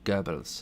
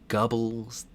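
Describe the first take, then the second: First: The first vowel is a rounded, non-English vowel. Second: The first vowel is a plain English 'uh' sound. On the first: "They have it in Icelandic, so I've gotten pretty good at saying it" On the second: "You could say Gubbles. That doesn't work"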